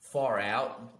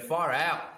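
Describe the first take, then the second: First: It is said in the speaker's normal accent. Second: It is said in an Australian accent.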